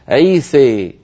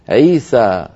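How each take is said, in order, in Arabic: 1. الحركة الأخيرة تميل نحو 'e' بشدة. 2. الحركة الأخيرة 'a' مفتوحة تماما. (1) "الإمالة الكبرى" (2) "من كان يفتح الألفات وهو الأصل"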